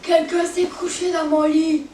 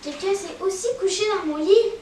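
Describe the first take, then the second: First: It is said in a big, deep voice. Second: It is said in a middle-pitched voice.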